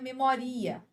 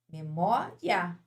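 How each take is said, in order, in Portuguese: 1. As vogais finais i e a são separadas. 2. As vogais finais i e a são juntas. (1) "Você não fala" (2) "quando uma fica mais forte que a outra, você tem o ditongo"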